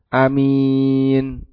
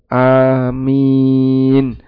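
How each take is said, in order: First: The first vowel is short. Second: The first vowel is drawn out long. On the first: "dibaca dengan A pendek, minnya yang panjang" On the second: "Dibaca A-nya dibaca dua harokat ya"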